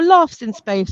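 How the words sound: It is said in a posh accent. "if you're posh"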